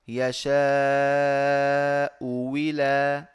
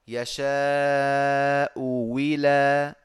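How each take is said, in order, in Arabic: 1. تصير الهمزة الثانية صوت واو مع كسرة. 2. تصير الهمزة الثانية صوت واو مع كسرة.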